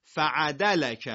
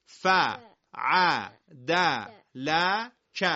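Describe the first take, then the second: First: Slow, run together as one word "فعدلک"; joined up. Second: Each syllable on its own, paused between; letter by letter. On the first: Teacher showing the class how it joins up, slowly blended. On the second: Teacher sounding out letters for the class to repeat, letter by letter. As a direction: sound out "ف، ع، د، ل، ک" one at a time. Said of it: "همه با هم بگید". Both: Shown as a demonstration.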